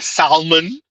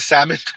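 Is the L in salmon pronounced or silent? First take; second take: pronounced; silent. First: The L sound is pronounced. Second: The L sound is silent.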